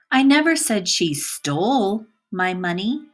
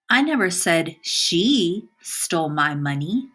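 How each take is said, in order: First: The word "stole" carries the stress. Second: The word "she" carries the stress. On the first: She did something else with the money. "By emphasizing the word stole" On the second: Somebody else did it. "By emphasizing the word she"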